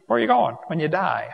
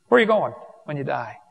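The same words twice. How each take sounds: First: Where are you GOING when you die, weight on "going" and falling at the end; a probing question with "going" pressed; stress on going. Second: WHERE are you going when you die, "where" pushed hardest and falling at the end; stress on where. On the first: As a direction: lean on "going" as you ask. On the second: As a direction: open hard on "where". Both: Real, not acted.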